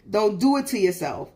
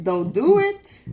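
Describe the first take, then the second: First: Said in the usual way. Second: Slow, higher, louder drawn-out warning. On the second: Retold or imitated. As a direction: stretch it out, half-threatening. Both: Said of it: "that's what I said".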